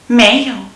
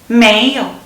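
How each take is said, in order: The two takes are said the same way.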